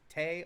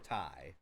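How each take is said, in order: First: The vowel sounds like the one in 'day'. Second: The vowel sounds like the one in 'eye'. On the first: "T A Y" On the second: "T I E"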